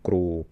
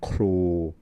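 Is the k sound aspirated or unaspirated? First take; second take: unaspirated; aspirated. First: The k is unaspirated, with no puff of air. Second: The k is aspirated, with a puff of air. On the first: The speaker calls it wrong. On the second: The speaker calls it right.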